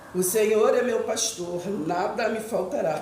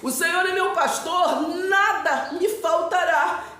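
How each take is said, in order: First: It is read flatly, as if to oneself. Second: It is read expressively, interpreted for listeners.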